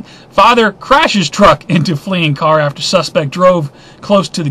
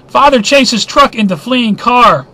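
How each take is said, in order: First: Fix it: "Father crashes truck" at normal level; corrected headline. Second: "chases" read slowly, higher and louder as a botched headline; misread headline. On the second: Vlogger misreads news headline for viewers, slow loud wrong take. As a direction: stumble out "Father chases truck" as the wrong take. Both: Real, not acted. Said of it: "I can't speak right this evening".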